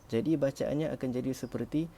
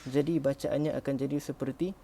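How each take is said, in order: The two takes are said the same way.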